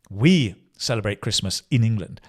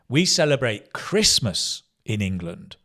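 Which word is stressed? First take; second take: We; Christmas. First: The stress falls on the word we. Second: The stress falls on the word Christmas. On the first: The people doing the celebrating are the focus. "normally the subject is the emphasis" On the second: The thing being celebrated is the focus. "You can use stress to emphasize Christmas"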